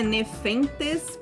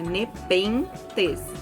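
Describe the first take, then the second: First: The second consonant is an f sound. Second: The second consonant is a p sound. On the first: The speaker calls it wrong. "Não é Nefentes, porque o H ele vem depois do T, não depois do P" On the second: The speaker calls it right. "Então é Nepenthes"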